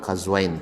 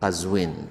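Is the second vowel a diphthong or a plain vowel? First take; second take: diphthong; plain vowel. First: The second vowel is the diphthong "ai". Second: The second vowel is a plain "i". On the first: It sounds like a dual form. The speaker calls it wrong. "bukan Qazwain" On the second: It is the name of a place. The speaker calls it right. "tapi Qazwin"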